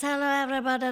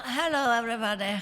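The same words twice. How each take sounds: First: High, louder celebrity impression with Hungarian accent; Zsa Zsa Gabor. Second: Higher-pitched attempt at a film star's greeting; Catherine. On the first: Actress greeting the audience as a famous socialite, high diva impression. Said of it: "Zsa Zsa Gabor, she talks like this". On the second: Actress unsure whose impression she is doing, tentative star impression. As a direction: try out a celebrity greeting, pitched up. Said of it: "this is Catherine, or who is this?". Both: Shown as a demonstration.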